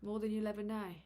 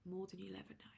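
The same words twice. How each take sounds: First: Said in the usual way. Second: Soft, unvoiced whisper; hushed repeat, barely audible. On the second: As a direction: whisper it intimately to the listener. Whispered repeat of the same line.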